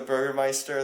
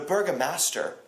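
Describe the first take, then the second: First: The title is said with German pronunciation. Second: The title is said with English pronunciation. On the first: The speaker calls it right. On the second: The speaker calls it wrong.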